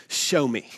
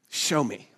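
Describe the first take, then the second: No difference in how they are said.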